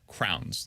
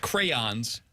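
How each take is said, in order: First: It is said as one syllable, like crowns. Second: It is said with two syllables, cray-ons. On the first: "That's what I thought it was pronounced as" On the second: "Not crayons"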